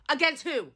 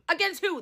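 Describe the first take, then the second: First: Said in the usual way. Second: Higher, laughing in disbelief; repeating the question with a scornful laugh; incredulous laugh. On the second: Real, not acted. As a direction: laugh through the repeat, unable to believe it.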